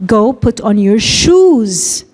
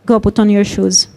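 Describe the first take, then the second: First: Shoes drawn out and falling, the whole line slow; slow line with shoes stretched and stressed. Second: Said in the usual way. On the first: Shown as a demonstration. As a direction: lean hard on the word shoes. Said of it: "I stress shoes". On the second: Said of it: "When I say".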